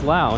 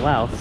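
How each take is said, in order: First: The name ends without an s sound. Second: The name ends with an s sound. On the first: The speaker calls it right. "It is Lao" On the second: The speaker calls it wrong. "not Laos"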